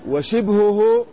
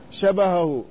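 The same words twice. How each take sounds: First: وشبهه as washibhuh, kasra on shin; وشبهه with kasra on shin, baa unvowelled; vowel demo. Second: شبهه as shabahahu, open vowels; شبهه with fatha on shin and baa; vowel demo. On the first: Teacher contrasting forms for students: وشبهه as washibhuh. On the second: Teacher contrasting forms for students: شبهه as shabahahu. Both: Shown as a demonstration. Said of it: "شبهه وشبهه".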